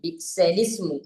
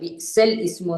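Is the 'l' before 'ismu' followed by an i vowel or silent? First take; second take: i vowel; silent. First: The l sound is followed by an i vowel. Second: The l sound carries no vowel after it. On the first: The speaker calls it right. "ലാമിന് കസറ" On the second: The speaker calls it wrong. "ലാമിന് സുക്കൂനാക്കി വായിക്കുന്നത്"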